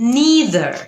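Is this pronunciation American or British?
American. It is said the American way, like 'nee-ther'. "নিদার এটা হচ্ছে American উচ্চারণ"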